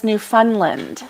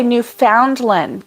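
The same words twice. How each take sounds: First: "Newfoundland" as new-FUN-lind; "Newfoundland" with the middle like "fun"; Newfunlind. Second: "Newfoundland" as new-FOUND-lin; "Newfoundland" with the middle as spelt, FOUND. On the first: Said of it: "[name] says Newfoundland". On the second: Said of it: "so you say Newfoundland". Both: Shown as a demonstration.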